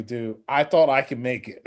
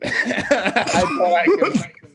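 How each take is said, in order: First: Said in the usual way. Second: Laughing. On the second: Real, not acted. Laughing repeat of his own line.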